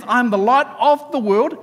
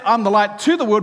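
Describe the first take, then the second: First: "of" lifted with a rising tune; "of" stressed, voice going up. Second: "to" leaned on, falling; "to" stressed with a falling tune. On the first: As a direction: lean on the word "of". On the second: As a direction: hit the word "to" clearly. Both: Shown as a demonstration. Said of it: "he didn't say".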